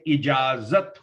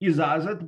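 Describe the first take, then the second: First: The first consonant is j, the second is z. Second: The first consonant is a z sound. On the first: The speaker calls it right. "पहले जे है, बाद को जेड है" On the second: The speaker calls it wrong. "इजाजत बोल देते हैं बहुत लोग"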